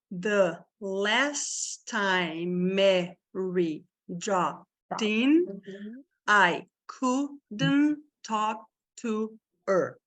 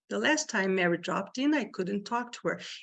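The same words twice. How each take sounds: First: The sentence is spoken slowly and carefully. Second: The sentence is spoken quickly and smoothly. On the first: "vamos bem devagar primeiro" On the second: "Aí você acelera"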